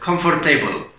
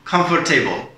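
First: The ending sounds clearly like the word table. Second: The ending sounds clearly like the word table.

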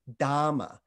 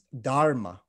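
First: The word has no R sound. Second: The word has a hard R sound. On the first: This is the Pali pronunciation. "It's kind of got a slight lisp to it" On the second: This is the Sanskrit pronunciation. "It's got a harder R"

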